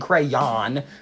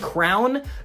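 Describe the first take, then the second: First: The final syllable is a strong, drawn-out yawn. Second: It collapses into one syllable sounding like crown. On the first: "emphasizing that yawn at the end" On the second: "they're adding an O and a W that does not exist in the word"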